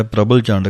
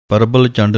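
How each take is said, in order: First: ਪ੍ਰਬਲ ਚੰਡ with open chaand vowel, clear pr; correct pronunciation. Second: ਪ੍ਰਬਲ ਚੰਡ with short chand; wrong pronunciation. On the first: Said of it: "ਕਹਿਣਾ ਹੈ". (ਸਹੀ ਉਚਾਰਨ) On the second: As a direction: show the mistake ਪ੍ਰਬਲ ਚੰਡ, vowel cut short. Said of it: "ਨਹੀਂ ਕਹਿਣਾ ਹੈ". (ਗਲਤ ਉਚਾਰਨ) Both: Shown as a demonstration.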